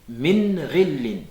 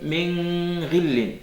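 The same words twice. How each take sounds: First: The n is short, with no nasal hum. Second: The n is held long with a nasal hum. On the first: The speaker calls it right. "sans faire intervenir le, le nez" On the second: The speaker calls it wrong. "On ne va pas dire min, ... Passer un temps sur le nun. C'est pas juste"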